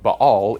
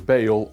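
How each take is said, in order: First: Two short A sounds with a throaty break. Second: The vowel sounds are changed. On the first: The speaker calls it right. "closer to the original Hebrew" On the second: The speaker calls it wrong. "change the vowel sounds"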